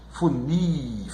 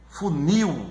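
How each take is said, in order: First: "Funil" softly with a drawn-out final NIL; stressed last syllable. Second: Said in the usual way. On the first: Shown as a demonstration. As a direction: quietly stretch NIL in "Funil". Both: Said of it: "na sílaba mais forte".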